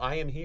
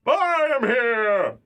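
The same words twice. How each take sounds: First: It is said in his normal speaking voice. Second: It is said in a deep All Might impression.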